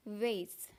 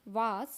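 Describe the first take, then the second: First: Vase said VAYS, low and falling; correct vase. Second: Vase said VAHS with a rising tune; wrong vase. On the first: Teacher shows the correct vase. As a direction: say vase to rhyme with face. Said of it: "This is". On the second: Teacher shows the common wrong vase. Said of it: "but this is incorrect". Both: Shown as a demonstration.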